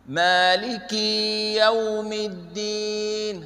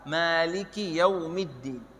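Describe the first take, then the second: First: The vowel after the k is drawn out long. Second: The vowel after the k is kept short. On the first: The speaker calls it wrong. "ada yang salah baca seperti ini" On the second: The speaker calls it right. "Tanpa suara panjang"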